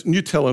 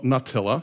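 First: Nutella with a "new" first syllable; correct pronunciation. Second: Nutella with a "nut" first syllable; mispronunciation. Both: Shown as a demonstration. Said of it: "Let me make that really clear".

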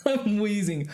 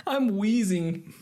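First: Laughing, slow wheezy voice. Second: High, slow, wheezing from laughter; wheezy voice. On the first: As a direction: gasp it out through laughter. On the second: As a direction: squeeze it out between wheezes. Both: Real, not acted.

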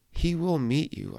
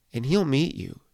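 First: WILL lifted higher and leaned on; he WILL meet you, with the weight on will; stress on WILL. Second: Said in the usual way. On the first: Shown as a demonstration. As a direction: land hard on the word will, reassuring the listener.

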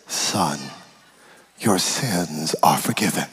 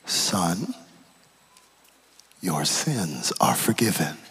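First: Jesus, gentle and low. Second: Low, slow, hushed Jesus voice; a hushed tender word, drawn out slowly; Jesus, gentle and low. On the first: Jesus tells the paralysed man calmly and slowly. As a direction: deliver the pardon slowly and low. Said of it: "first thing he says to me is". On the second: Jesus speaks low and gently to the lowered man. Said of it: "first thing he says". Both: Retold or imitated.

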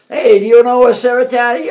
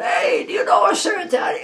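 First: Louder, higher yell across the dock; retold shout across the pier; yelled question. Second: High, loud call across the water; yelled across the dock. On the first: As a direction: call out to a stranger far off. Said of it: "yelled it". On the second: Retold or imitated. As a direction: shout to someone far off. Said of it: "Some guy yelled out".

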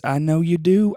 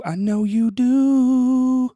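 First: Said in the usual way. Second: Very high, slow, drawn-out sing-song tease; teasing sing-song. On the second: Acted. Host teasing listeners who need tickets, high sing-song. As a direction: croon it back at them like a playful taunt.

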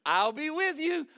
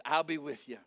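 First: High, loud proclamation; bold promise. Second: Low, unmoved promise; calm repeat. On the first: Angel ignoring Gideon's protest, high loud promise. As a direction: announce it brightly over objections. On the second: Angel ignoring Gideon's objections, low calm assurance. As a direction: restate it evenly, pitch dropped. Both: Acted.

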